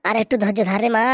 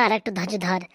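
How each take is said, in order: First: Said in the usual way. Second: Repeated, much softer, lower; mother's quiet repeat to her daughter; soft echo. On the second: Acted. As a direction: let it fade into a hush.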